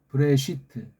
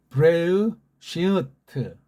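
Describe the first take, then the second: First: The sounds are run together in a compressed form. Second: Each letter sound is voiced separately, ending in 'tu'. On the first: "서양 애들이 읽는 식으로" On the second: "자모 체계로만 그렇게 내는 거예요"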